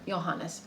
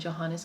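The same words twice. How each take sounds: First: The name is said with a German pronunciation. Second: The name is said with an English pronunciation. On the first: "that's the German pronunciation" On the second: "but we some call him"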